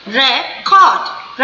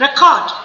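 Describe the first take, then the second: First: record slowly, re... cord, with a gap; two separate stresses. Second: Said in the usual way. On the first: Shown as a demonstration. Teacher demonstrating two syllables, record split slowly. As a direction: break record into two beats. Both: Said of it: "दो बार करेंगे".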